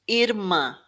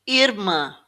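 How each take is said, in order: The two takes are said the same way.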